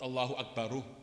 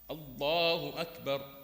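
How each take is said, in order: First: The last word ends with an added u vowel. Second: The last word ends on a consonant. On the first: The speaker calls it wrong. "Not Allahu Akbaru" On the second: The speaker calls it right. "So how do we say?"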